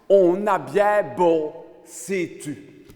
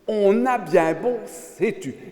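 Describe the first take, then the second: First: It is said in a strong Liège accent. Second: It is said in a plain standard accent.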